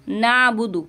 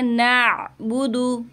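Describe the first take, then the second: First: नाबुदु said without the ain; the wrong version with no ain sound; wrong plain a. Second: Slow, नाबुदु with ain sounded clearly from the throat. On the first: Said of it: "नाबुदु नहीं पढ़ना". (ग़लत उच्चारण, ऐन के बिना) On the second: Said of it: "आइन को वादे करना है". (नाबुदु में ऐन साफ़ अदा करना) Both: Shown as a demonstration.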